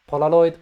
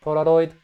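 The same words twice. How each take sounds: First: Polaroid with a pure soft L. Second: Polaroid with the L turning toward a D; hint of D Polaroid. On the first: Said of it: "One more time, L". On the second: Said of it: "a little bit of D". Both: Shown as a demonstration.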